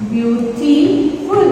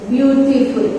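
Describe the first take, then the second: First: "Beautiful" slowly split as beau-ti-ful; broken into syllables. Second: Said in the usual way. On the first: Shown as a demonstration. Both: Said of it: "Three syllable".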